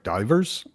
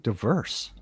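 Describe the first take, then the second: First: It sounds like the word 'divers'. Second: It sounds like the word 'diverse'. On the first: The speaker calls it wrong. "I was always kind of pronouncing it divers, more like divers" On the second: The speaker calls it right. "no, it's fucking diverse"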